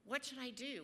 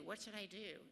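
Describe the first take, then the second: First: Louder, pleading cry to God. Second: Said in the usual way. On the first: Retold or imitated. Runner crying out to God on the beach, pleading. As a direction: call out the question in desperation. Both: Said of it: "I just cried out to God".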